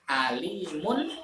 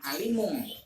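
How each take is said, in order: First: The final n sound is pronounced clearly. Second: The final n sound is blurred and nasal. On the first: The speaker calls it right. "tapi alimun khobir" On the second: The speaker calls it wrong. "bukan alimung"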